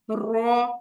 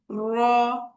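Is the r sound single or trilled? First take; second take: trilled; trilled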